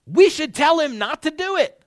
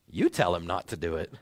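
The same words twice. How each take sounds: First: Louder, higher, pressing the point hard; urgent advisor. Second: Lower, softer, passing the job back; deflecting advisor. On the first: Advisor urging his fellow to warn Saul, raised and pressing. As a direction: urge the others to step in. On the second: Second advisor pushing the job back, lower and dismissive. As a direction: shrug the task off onto the other man. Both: Retold or imitated. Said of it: "thinking something along the lines of".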